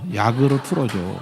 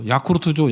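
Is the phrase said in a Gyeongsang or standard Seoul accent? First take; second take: standard Seoul; Gyeongsang. First: It is said slowly in a standard accent. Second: It is said fast in a Gyeongsang accent. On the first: It is a request to set the fan on low. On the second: It sounds like asking for a Yakult drink.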